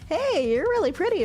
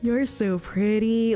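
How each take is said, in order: First: It is said in a friendly, normal way. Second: It is said in a creepy, leering way.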